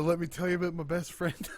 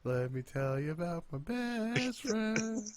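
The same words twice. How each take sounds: First: Quoted through a laugh; laughing quote. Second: Higher, slower mock catchphrase; Cole catchphrase. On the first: Retold or imitated. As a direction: say it while laughing. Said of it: "did you see Cole doing the". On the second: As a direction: drag out the catchphrase. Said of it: "all I could hear was".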